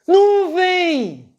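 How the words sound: The word is said in panic and horror.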